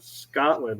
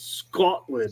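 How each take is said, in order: First: It is said with an American accent. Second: It is said with a Scottish accent. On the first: The speaker calls it wrong. "it's not Scotland" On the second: The speaker calls it right. "pronounces it right"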